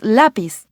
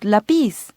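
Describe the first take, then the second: First: The stress is on the first syllable. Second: The stress is on the last syllable. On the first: The speaker calls it right. "the emphasis is on the first syllable. It's lápiz" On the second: The speaker calls it wrong. "not lápiz"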